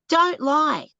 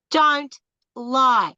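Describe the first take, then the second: First: Firm don't lie, stress on "don't". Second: "Don't", a pause, then "lie", each word punched; slow split don't lie. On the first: Telling online daters firmly, stressed. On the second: Warning online daters, pausing between words. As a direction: break it into two hammered words. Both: Shown as a demonstration.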